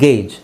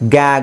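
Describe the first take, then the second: First: The word ends with a j sound. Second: The word ends with a hard g sound. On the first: The speaker calls it right. "ಜಿ ಇ ಬಂದರೆ ಜ" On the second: The speaker calls it wrong. "ಗ್ಯಾಗ್ ಅಂತ ಆಗ್ಬೋದು"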